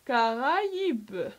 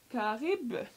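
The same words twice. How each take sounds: First: The a and i are two separate vowels. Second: The a and i merge into one vowel. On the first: The speaker calls it right. "quand on voit le tréma, ça veut dire qu'on doit prononcer les deux voyelles" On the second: The speaker calls it wrong. "S'il n'y avait pas ces deux points qui se placent sur le I, on aurait pu dire"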